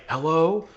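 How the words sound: The word is said in a nervous, hesitant way. "could be like nervous"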